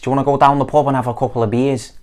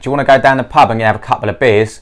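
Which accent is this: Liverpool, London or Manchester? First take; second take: Liverpool; London. First: It is spoken in a Liverpool accent. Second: It is spoken in a London accent. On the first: "O quarto sotaque é de Liverpool" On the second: "O segundo sotaque é de Londres"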